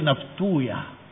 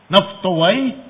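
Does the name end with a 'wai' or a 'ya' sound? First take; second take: ya; wai. First: The name ends in a 'ya' sound. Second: The name ends in a 'wai' sound. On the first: This form avoids a disliked word in the name. "mereka panggil naftuya" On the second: This is the original form of the name. "di belakangnya ada kata wai"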